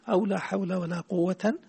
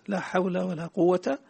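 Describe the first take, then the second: First: The last word ends in 'an'. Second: The last word ends in a short 'a'. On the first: "بعدها فتحتين" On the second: "تضع الفتحة"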